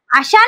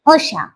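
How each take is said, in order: First: अशा wrongly opened on a long आ. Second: Low अशा with a short first vowel; correct short a. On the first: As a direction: say आशा where अशा is meant. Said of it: "नाही". (अशाऐवजी चुकीचा दीर्घ आ) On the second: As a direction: drop lower and keep अ of अशा short. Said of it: "अशा नाही". (अशाचा योग्य ऱ्हस्व उच्चार) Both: Shown as a demonstration.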